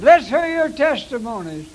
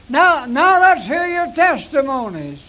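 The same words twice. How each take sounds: First: Louder call to the congregation; announcing call. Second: Louder rallying call to the congregation; announcing call. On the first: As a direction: invite testimonies with a raised voice. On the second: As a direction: call out for testimonies like a preacher. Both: Shown as a demonstration. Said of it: "That's the way I said it".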